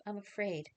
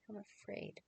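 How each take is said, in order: First: Said in the usual way. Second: Much softer, a fearful whisper; frightened whisper. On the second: Acted. Mary whispers her fear to Joseph. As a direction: barely get the words out, scared.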